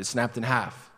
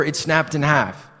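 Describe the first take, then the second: First: Softer, unsure mumble; guilty faltering excuse; sheepish stumbling lie. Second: Breezy and sure, a touch slower; casual lie told with a straight face; confident fake excuse. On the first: Retold or imitated. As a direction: admit it weakly, losing nerve. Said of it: "I was stumbling like this". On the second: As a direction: glib cover story, said easily. Confident lie about the sign.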